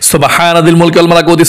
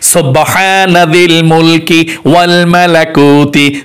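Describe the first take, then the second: First: It is recited at a fast, rapid pace. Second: It is recited at a slow, careful pace. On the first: "দ্রুত।" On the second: "আমার সঙ্গে একটিবার পাঠ করুন।"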